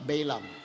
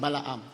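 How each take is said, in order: First: It is said the American way. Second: It is said the Filipino way.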